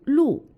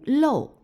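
First: The syllable is pronounced lù. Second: The syllable is pronounced lòu. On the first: It is the usual reading. "大多数时候读露" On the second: It is used in some colloquial words. "只有在一些口语用词中读漏"

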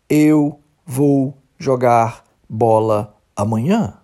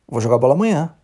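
First: Said slowly, each word separate. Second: Said fast, the words run together.

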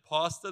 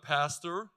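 First: It is said in a South African accent. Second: It is said in an American accent. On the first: Listeners misheard it as another word. The speaker calls it wrong. "Some Americans don't understand South African accents" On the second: Listeners understand it. The speaker calls it right. "So I've had to switch to"

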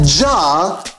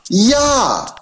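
First: The name begins with a J sound. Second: The name begins with a Y sound. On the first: The speaker calls it wrong. "not Jah" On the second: The speaker calls it right. "everywhere you have a J, it's really a Y"

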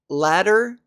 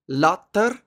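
First: The name is said with an English pronunciation. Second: The name is said with a Norwegian pronunciation.

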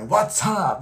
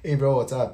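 First: It is said with hyped, high energy. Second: It is said casually with low energy.

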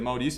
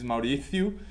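First: The s sound is pronounced clearly. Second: The s sound is pronounced with a lisp. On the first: The speaker calls it right. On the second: The speaker calls it wrong.

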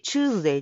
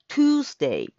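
First: The word begins with a 'chu' sound. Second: The word begins with a 'tu' sound. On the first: This is how it is usually said in Japan. "チューズデイって言うんですけど" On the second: This follows the phonetic symbols. "春日のトゥースと同じTuesday"

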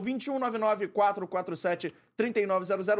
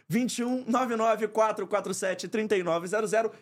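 First: The number is said at normal speed. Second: The number is said slowly.

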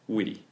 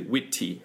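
First: The middle T is a soft American D-like flap. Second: The middle T is said crisply and strongly.

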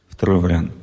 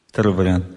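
The two takes are said the same way.

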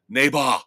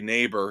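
First: It is said in an imitated Austrian accent. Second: It is said in a plain American accent. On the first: This mimics how someone else pronounces it. "he says neighbor" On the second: This is the standard pronunciation. "he can't say neighbor"

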